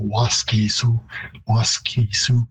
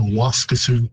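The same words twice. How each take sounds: First: "Waskesiu" with a long middle vowel, WAS-kee-soo; Cree pronunciation. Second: "Waskesiu" with a reduced middle, WAS-kuh-soo; English pronunciation. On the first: Linguist showing the host the Cree vowel, lengthened. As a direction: stress the first syllable of "Waskesiu", hold the "kee". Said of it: "it would be a longer vowel in Cree". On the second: Linguist showing the English pattern, middle syllable reduced. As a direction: stress the first syllable of "Waskesiu", swallow the second. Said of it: "you tend to reduce the second syllable". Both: Shown as a demonstration.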